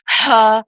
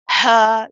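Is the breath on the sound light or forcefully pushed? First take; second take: forcefully pushed; forcefully pushed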